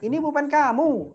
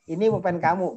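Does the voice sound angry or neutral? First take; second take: angry; neutral. First: It is said in a half-angry, forceful tone. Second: It is said in a plain, neutral tone. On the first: The speaker is annoyed. "udah setengah marah" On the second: It is an ordinary statement. "biasa tuh"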